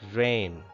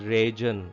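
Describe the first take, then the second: First: No G sound is pronounced in the word. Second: A G sound is pronounced in the word. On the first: The speaker calls it right. "It is actually rain" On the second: The speaker calls it wrong. "We do not pronounce it as region"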